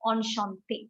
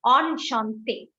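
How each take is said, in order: First: Softer "Enchanté" at normal pace, on-shan-tay; teacher repeating "Enchanté" softly; quick quiet repeat. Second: "Enchanté" said slowly as on-shan-tay; teacher spelling out "Enchanté" by sound; slow pronunciation demo. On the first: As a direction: drop "Enchanté" lightly at the end. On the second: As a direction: stretch out "Enchanté" syllable by syllable. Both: Shown as a demonstration. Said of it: "enchanté pronunciation is pretty easy".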